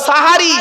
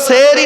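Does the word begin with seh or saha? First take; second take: saha; seh. First: It has three syllables starting with saha. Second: It has two syllables starting with seh. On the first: The speaker calls it right. "শব্দটা সাহারি" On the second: The speaker calls it wrong. "শব্দটা সেহরি নয় গো বাবা"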